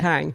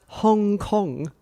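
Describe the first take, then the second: First: The name is said with English-style vowels. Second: The name is said with Korean-style vowels.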